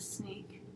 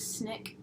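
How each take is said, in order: First: Said in the usual way. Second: SNICK with a short i; mispronounced sneak. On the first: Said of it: "snick instead of sneak". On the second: Retold or imitated. Quoting a TV character's slip, mispronounced snick. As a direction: say "snick", short vowel as in sick. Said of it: "Peter says snick instead of sneak".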